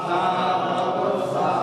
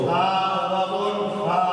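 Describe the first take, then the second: The two takes are said the same way.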